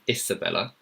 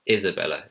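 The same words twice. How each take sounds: First: The first syllable has an S sound. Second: The first syllable has a Z sound. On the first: The speaker calls it wrong. "it's not an Isabella" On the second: The speaker calls it right. "It's Isabella. Z"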